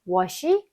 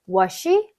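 No difference in how they are said.

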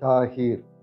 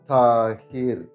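First: It is said at normal speed. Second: It is said slowly.

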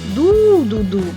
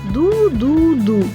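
First: The first syllable is stressed. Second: All three syllables are said evenly, none stressed. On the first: "виділяє інтонацією перший склад" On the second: "Він грає її рівно"

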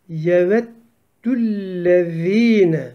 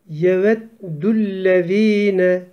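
Both takes have the same delivery.

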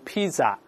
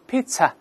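First: The middle consonant is a z sound. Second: The middle consonant is a ts sound. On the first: The speaker calls it wrong. "就不能读pizza" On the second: The speaker calls it right. "pizza 不是"

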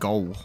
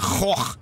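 First: The name ends in a hard G-like sound. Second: The name ends in a throaty CH sound. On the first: This is how outsiders say it. The speaker calls it wrong. "People say Vincent from Gaul or something" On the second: This is how Dutch speakers say it. The speaker calls it right. "We say Goch"

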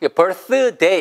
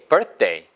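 First: The th sound is clearly released before day. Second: The th sound is swallowed and day follows. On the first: The speaker calls it wrong. "이렇게 발음하면 힘들어요" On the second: The speaker calls it right. "birth 하고 먹어주시고 소리를 day"

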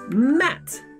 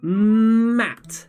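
First: The word is said quickly, as one unit. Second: The word is said slowly, sound by sound. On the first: "very fast" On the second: "you help me read it very slowly"

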